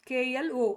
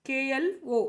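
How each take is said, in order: No difference in how they are said.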